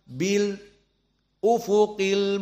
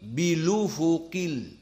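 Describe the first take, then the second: First: A brief stop comes before the glottal stop. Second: The glottal stop is dropped and the words run together. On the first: "Berhenti sejenak dalam beberapa detik" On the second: "dihapuskan hamzahnya dan harokatnya dipindah"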